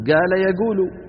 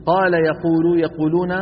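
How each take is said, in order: First: "قال يقول" mit hartem g statt q gesprochen, also gala yegulu; "قال يقول" wie im Beduinendialekt, q als g; dialect g sound. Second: Said in the usual way. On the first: Shown as a demonstration. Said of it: "تستخدمه مكان حرف القاف". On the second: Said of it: "بدلًا من أن يقولوا".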